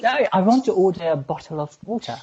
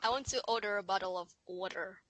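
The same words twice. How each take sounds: First: Lively, higher British accent demonstration; insistent British accent. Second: Low, soft American accent; failed British attempt that comes out American. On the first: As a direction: model British pronunciation emphatically. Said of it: "It's British". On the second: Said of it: "that's American". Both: Shown as a demonstration.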